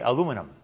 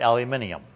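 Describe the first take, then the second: First: It is said with an American pronunciation. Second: It is said with an Australian pronunciation. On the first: "We say aluminum" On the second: "not aluminium"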